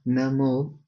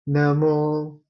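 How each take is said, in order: First: The syllable mo is on a middle pitch. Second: The syllable mo is on a high pitch. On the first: "So that is middle" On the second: "the intonation is going high"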